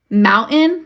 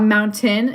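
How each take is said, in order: First: The T sound in the middle is dropped. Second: The T sound in the middle is pronounced. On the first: This is the speaker's own everyday way. "is like how I say it" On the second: This is not how the speaker says it.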